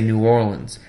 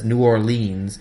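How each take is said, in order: First: The name is pronounced the way locals say it. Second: The name is pronounced the way outsiders say it. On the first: The speaker is from the city. The speaker calls it right. "We all say New Orleans" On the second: The speaker is not from the city. The speaker calls it wrong. "nobody local says New Orleans"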